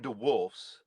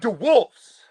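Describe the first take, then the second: First: The name is said in a plain, flat way. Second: The name is said with strong, excited emphasis. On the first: The speaker calls it wrong. "you don't go to DeWolf's" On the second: The speaker calls it right. "say it with feeling"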